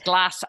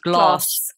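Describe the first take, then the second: First: It is said in a Scottish accent. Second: It is said in a posh southern English accent. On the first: "But when you're Scottish, it's glass ashtray" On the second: "with received pronunciation, that's glass"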